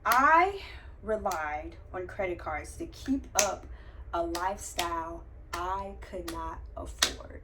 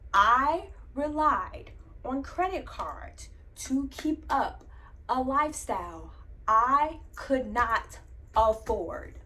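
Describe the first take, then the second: First: It is said at normal volume. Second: It is said louder.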